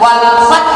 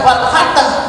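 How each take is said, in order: First: The final consonant is cut off with a sharp jolt. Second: An extra vowel is added after the final consonant. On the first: The speaker calls it right. "Dicepet an-nabr dihentakkan" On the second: The speaker calls it wrong. "tidak sampai wal fatah"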